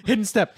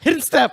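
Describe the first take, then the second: First: Said in the usual way. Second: Laughing. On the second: Acted.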